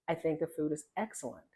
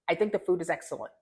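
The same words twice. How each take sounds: First: It is said slowly and clearly. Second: It is said quickly and rushed. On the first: The speaker calls it right. "There's no need to rush the information" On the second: The speaker calls it wrong. "How fast that is"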